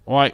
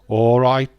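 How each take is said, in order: First: It is said in a London accent. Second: It is said in a Birmingham accent. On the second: "you get a Birmingham accent"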